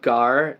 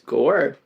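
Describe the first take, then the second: First: The vowel sounds like an open 'ah'. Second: The vowel sounds like a rounded 'oh'. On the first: The speaker calls it wrong. "it's not gar" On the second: The speaker calls it right. "ah is pronounced like oh"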